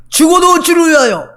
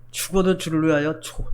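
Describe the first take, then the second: First: "죽어도" shouted high and loud; loud slogan. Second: Mock the empty slogan quietly; mocking mutter. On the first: Acted. Preacher crying the slogan to the church, loud and high. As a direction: belt out "죽어도 주를 위하여" like a rally cry. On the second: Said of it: "말은 잘하네".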